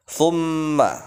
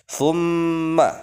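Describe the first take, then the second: No difference in how they are said.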